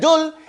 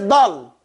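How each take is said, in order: First: The word is said with a light, thin sound. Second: The word is said with a heavy, raised sound. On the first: The speaker calls it wrong. "it doesn't say dul" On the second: The speaker calls it right. "it says dull, right? That's because it's pronounced with that isti'la"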